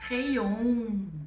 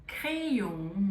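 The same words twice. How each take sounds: First: The first vowel is an E sound. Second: The same.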